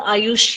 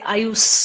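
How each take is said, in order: First: The name ends with a sh sound. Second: The name ends with an s sound.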